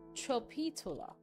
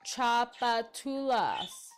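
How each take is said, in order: First: The word ends without an S sound. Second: The word ends with an S sound. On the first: The speaker calls it wrong. "I got that wrong" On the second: The speaker calls it right. "You pronounce the the S at the end?"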